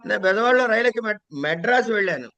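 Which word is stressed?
Madras. The word 'Madras' is stressed. The traveller reached this city without getting off midway. "నెల్లూరులోనో కావల్లోనో దిగిపోలే"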